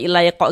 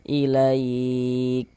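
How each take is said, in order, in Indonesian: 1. Huruf k terakhir memantul dengan tambahan vokal. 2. Huruf k terakhir berakhir dengan hembusan napas yang mengalir. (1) "mantul jadinya bu- bukan mengalir" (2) "Sekarang ini dia mengalir, mengalir saja nafasnya"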